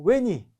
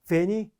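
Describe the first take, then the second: First: The word begins with a W sound. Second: The word begins with a V sound. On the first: This is the original Latin pronunciation. "원어는요" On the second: This is the medieval pronunciation, more familiar to Koreans. "V를 중세 발음처럼 V로 발음하면"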